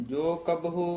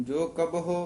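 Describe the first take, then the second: No difference in how they are said.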